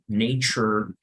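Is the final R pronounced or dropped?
pronounced. The final R is pronounced. "in American English va a sonar así la R"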